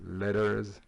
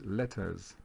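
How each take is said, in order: First: "letters" with the middle T softened almost to a D; American pronunciation. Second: "letters" with a clear middle T; British pronunciation. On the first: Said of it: "les Américains disent letters". (« letters » à l'américaine, T presque changé en D) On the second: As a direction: say "letters" the English way, keeping the T crisp. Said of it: "les Anglais diraient peut-être un peu plus". (« letters » à l'anglaise, avec un vrai T au milieu) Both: Shown as a demonstration.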